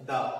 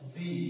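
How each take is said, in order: First: The word ends in an 'uh' vowel. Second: The word ends in an 'ee' vowel. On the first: It comes before a consonant sound. "T H E যখন কনসোনেন্টের পূর্বে থাকবে তখন তার উচ্চারণ দাঁড়াবে দা" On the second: It comes before a vowel sound. "T H E যখন ভাওয়ালের আগে থাকবে তখন তার উচ্চারণ দাঁড়াবে ডি"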